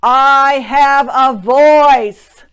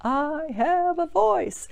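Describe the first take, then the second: First: High, loud, very slow declaration; loud affirmation. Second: High, slow and drawn out; slow affirmation. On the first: Coach showing how to say it each morning. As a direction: proclaim it slowly like a morning vow. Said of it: "wake up every morning and just say". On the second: Coach modelling the line slowly for listeners. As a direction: stretch each word, lifting it high. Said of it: "Now it's your turn". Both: Shown as a demonstration.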